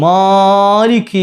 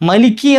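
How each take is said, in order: First: The first vowel is stretched very long. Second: The first vowel is short, with no lengthening. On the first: "അത് അത്ര നീട്ടണോ? വേണ്ട" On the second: "മാലിക്കി എന്നുള്ള നീട്ട് തന്നെ പോയിട്ട് മലിക്കി ആയി പോകലുണ്ട്"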